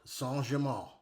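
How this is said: The name is said with a French pronunciation. "Excuse my French pronunciation"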